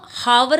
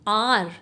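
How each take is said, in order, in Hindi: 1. शब्द की शुरुआत 'h' ध्वनि से होती है। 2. शब्द की शुरुआत स्वर ध्वनि से होती है। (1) "इसको हम हावर नहीं बोलते" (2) "एच साइलेंट होती है"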